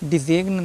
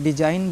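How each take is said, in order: First: A g sound is pronounced in the word. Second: The g is silent in the word. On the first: The speaker calls it wrong. "नहीं बोलना है" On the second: The speaker calls it right. "हमको डिजाइन बोलना है ना"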